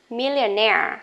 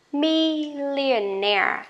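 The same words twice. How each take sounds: First: Millionaire at normal speed, stress on -naire; normal speed word. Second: Millionaire said slowly, syllable by syllable, stress on -naire; slow model word. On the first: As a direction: say Millionaire at natural pace. (đọc Millionaire tốc độ bình thường) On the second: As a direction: stretch out Millionaire like a teacher. (đọc chậm, rõ từng âm tiết Millionaire) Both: Shown as a demonstration. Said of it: "đều nhấn vào chính cái âm này".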